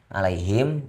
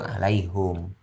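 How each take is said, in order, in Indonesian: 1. Bunyi vokal setelah h adalah i. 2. Bunyi vokal setelah h adalah u. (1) "yang biasanya kita baca di Imam Asim itu alaihim" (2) "kalau di Imam Hamzah itu alaihum"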